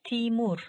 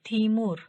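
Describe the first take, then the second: The two takes are said the same way.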